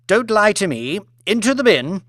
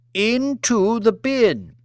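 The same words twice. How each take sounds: First: High curt command; imperious order. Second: "Into the bin." said slowly, each word weighted and final; slow repeated command. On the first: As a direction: order him in without pity. Lady Elizabeth orders chef into bin. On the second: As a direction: spell "Into the bin." out as an unarguable order. Repeated order to head chef. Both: Acted.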